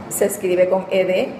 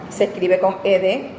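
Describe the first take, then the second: The two takes are said the same way.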